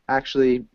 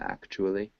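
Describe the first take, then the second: First: The syllables are reduced and run together. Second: Every syllable is pronounced fully and distinctly.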